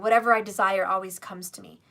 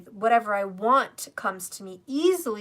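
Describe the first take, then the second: First: It is said casually, without conviction. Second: It is said with strong conviction.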